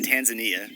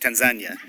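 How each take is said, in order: First: It is said the usual English way. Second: It is said the way locals say it. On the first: The speaker calls it wrong. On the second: The speaker calls it right.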